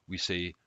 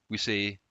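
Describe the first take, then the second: The two takes are said the same way.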